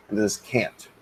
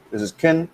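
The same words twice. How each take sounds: First: "can't" given full vowel and a glottal stop at the end; teacher models the strong "can't"; stressed can't. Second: "can" said short and reduced, like "kin"; teacher models the weak "can". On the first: Teacher contrasts for students, full "can't" with glottal stop. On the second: Teacher shows students the unstressed form, lightly reduced. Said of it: "I can, can". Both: Shown as a demonstration.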